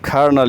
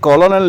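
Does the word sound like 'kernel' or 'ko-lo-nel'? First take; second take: kernel; ko-lo-nel. First: It is said as two syllables, 'ker-nel'. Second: It is said as three syllables, 'ko-lo-nel'. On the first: The speaker calls it right. "बल्कि बोलते हैं कर्नल" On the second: The speaker calls it wrong. "इसे कॉलोनल नहीं बोलते"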